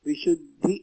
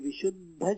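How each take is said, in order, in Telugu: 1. పదం 'i' అచ్చుతో ముగుస్తుంది. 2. పదం 'a' అచ్చుతో ముగుస్తుంది. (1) "ఇకారాంతం" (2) "కాదు"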